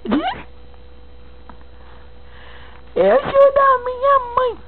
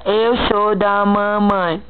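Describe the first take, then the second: First: Put-on high baby talk. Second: Said in the usual way. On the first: Shown as a demonstration.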